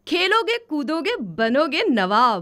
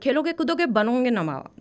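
First: The phrase is said slowly with clear pauses. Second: The phrase is rushed out quickly without pauses. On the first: The speaker calls it right. "रुक के ठहर के आपको कायदे से बोलना है" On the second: The speaker calls it wrong. "कुछ फटाक से बोल दिया था एकदम। नहीं, ऐसे नहीं करना है"

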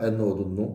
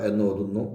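The two takes are said the same way.

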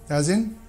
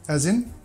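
Both takes have the same delivery.

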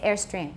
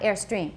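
First: The stress falls on the first syllable, 'air'. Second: The stress falls on the second syllable, 'stream'. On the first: The speaker calls it right. "So we say airstream" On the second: The speaker calls it wrong. "not airstream"

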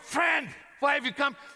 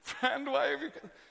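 First: It is said with mockery and scorn. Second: It is said with a tone of self-pity.

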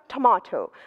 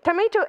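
First: It is said with a British accent. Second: It is said with an American accent. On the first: "а британское – это" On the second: "это американское произношение"

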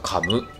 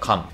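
First: The word ends with an added vowel sound. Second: The word ends in a bare m sound.

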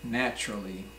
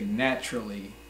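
Both takes have the same delivery.

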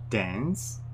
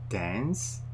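No difference in how they are said.

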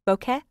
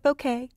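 First: It sounds like 'bow' plus 'keh'. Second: It does not end in a 'keh' sound. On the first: This is the proper pronunciation. The speaker calls it right. "the proper pronunciation is bow, like bow tie, and ka, like kettle, keh" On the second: This is how some people say it. The speaker calls it wrong. "Some people call it bokeh"

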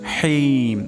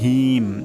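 First: The h sound comes from mid-throat. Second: The h sound is light, not from the throat. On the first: The speaker calls it right. "হলকের মাঝখান থেকে হাটা উচ্চারণ হবে" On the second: The speaker calls it wrong. "এটা কিন্তু ভুল উচ্চারণ"

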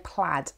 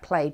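First: The word is said the non-Scottish way. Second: The word is said the Scottish way. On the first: This is how some other people say it. "Some people would say plaid" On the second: This follows the original Gaelic-derived word. "I go with the Scottish version"

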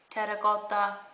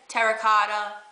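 First: It is said with a slight Italian accent. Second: It is said plainly, without an Italian accent. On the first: "I'm saying it with like a little Italian accent" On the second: "Some people say"

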